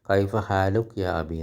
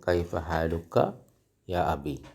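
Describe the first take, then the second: First: The ending vowel of 'haaluk' is dropped. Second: The ending vowel of 'haaluka' is pronounced. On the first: This is how it is said in everyday speech. "അറബി സംസാരിക്കുമ്പോൾ ... എന്നാണ് പറയുക" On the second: This is the proper full form. "ശരിക്കും പറയേണ്ടത്"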